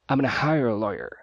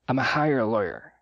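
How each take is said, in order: First: 'Gonna' is clipped into an even shorter form. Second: 'Going to' shrinks to a single 'a' sound. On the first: "formas ainda mais reduzidas" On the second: "Ou ainda mais reduzida, I'm a"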